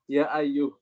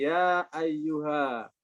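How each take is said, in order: First: The last word ends in a consonant. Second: The last word ends in a long vowel. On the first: This is the form without the alif in those verses. "ayyuhanya nggak ada alifnya. ... Gini" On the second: This is the original form with the alif. "aslinya begini"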